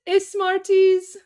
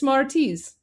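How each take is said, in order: First: An extra vowel is added before the s. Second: The word starts directly with the s sound. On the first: The speaker calls it wrong. "I actually uh, thought that Smarties was pronounced Ismarties" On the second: The speaker calls it right. "there you go. It's Smarties"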